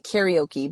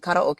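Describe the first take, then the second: First: It is said with an English pronunciation. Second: It is said with a Japanese pronunciation. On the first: "some of you might pronounce it" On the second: "we pronounce it karaoke, which is a, a Japanese pronunciation"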